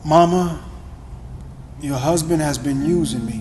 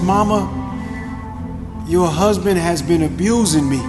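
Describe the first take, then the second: First: It is said quietly and with shame. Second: It is said louder, with some aggression.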